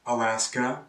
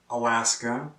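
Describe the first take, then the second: No difference in how they are said.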